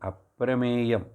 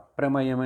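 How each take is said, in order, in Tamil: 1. 'pram'க்குப் பின் வரும் உயிர் நெடில் e. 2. 'pram'க்குப் பின் வரும் உயிர் குறில் a. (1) "அதோட என்ன கரெக்டானது அப்பிரமேயம்" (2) "அது வேதிக் யூசேஜ்"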